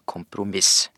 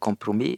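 First: The word is pronounced the Norwegian way. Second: The word is pronounced the French way. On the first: The speaker calls it right. "men du bør si kompromiss" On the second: The speaker calls it wrong. "du bør ikke si kompromiss"

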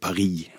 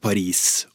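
First: The name is said with its local pronunciation. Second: The name is said with a common Norwegian pronunciation. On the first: This is how people in the place itself say it. The speaker calls it wrong. "og ikke Paris" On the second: This is the established form used in Norwegian. The speaker calls it right. "vi holder oss til noen vanlige norske uttaleformer. Så vi sier for eksempel Paris"

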